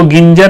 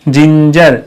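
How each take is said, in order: First: The word begins with a hard g sound. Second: The word begins with a soft j sound. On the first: The speaker calls it wrong. "इसको गिंजर नहीं बोलेंगे" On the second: The speaker calls it right.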